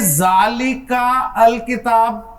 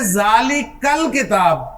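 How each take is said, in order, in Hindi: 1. आर्टिकल स्वर के बाद एक अलग अक्षर शुरू करता है। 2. आर्टिकल का स्वर हटा दिया जाता है और वह आसानी से जुड़ जाता है। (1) "ऐसे तो नहीं पढ़ेंगे ना" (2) "आप क्या पढ़ेंगे?"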